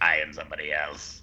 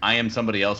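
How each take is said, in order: First: It is said in a put-on character voice. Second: It is said in his normal voice.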